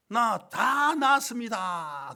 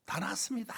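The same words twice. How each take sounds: First: Drawn out very slowly, high and loud; joyful boast. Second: Breathy whispered claim, pitched up. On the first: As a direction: proudly announce he's fully healed. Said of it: "너무 기쁘게". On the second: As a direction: hush it like a secret. Retold claim of healing. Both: Retold or imitated.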